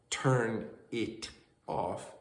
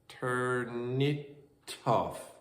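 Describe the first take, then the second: First: Each word is said separately, without linking. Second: Final consonants chain onto the following vowels.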